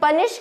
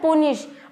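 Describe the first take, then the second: First: The first vowel sounds like the vowel in cup. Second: The first vowel sounds like the vowel in put. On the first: "सौ में से पचानवे या निन्यानवे percent लोग इसे पनिश कहते हैं" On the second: "इसकी जो सही प्रोनाउंसिएशन होती है"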